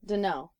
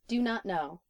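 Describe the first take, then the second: First: The words run together into one reduced form. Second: All words are pronounced fully and separately.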